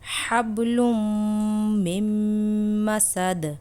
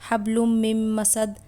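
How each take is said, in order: First: The nasal m is held for two counts. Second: It is said quickly with the nasal cut short. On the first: The speaker calls it right. "सही तरीका है" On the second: The speaker calls it wrong. "जल्दी में पढ़ देते हैं और गुन्ना छोड़ देते हैं, ये गलत है"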